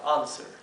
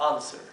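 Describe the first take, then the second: First: It is said in a British accent. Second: The same.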